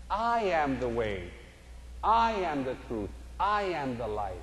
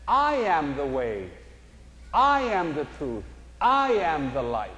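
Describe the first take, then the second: First: Quieter, falling, each "I" gently leaned on; soft reverent repeat. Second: Slow, weighty stress on each "I"; emphatic slow quote. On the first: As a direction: let it settle, softer and slower. Repeats quote softly. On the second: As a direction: lean on every "I" and let it fall. Quoting Jesus, slow emphatic. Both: Acted.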